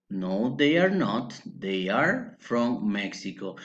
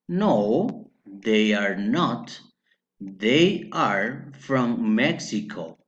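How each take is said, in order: First: Said in the usual way. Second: "No, they are not. They are from Mexico." very slow, word by word; slow model answer. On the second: Shown as a demonstration. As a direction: spell out "No, they are not. They are from Mexico." slowly, pausing between phrases. Teacher models answer slowly, then repeats.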